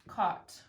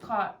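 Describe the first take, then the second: First: It is said somewhat fast. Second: It is said very fast.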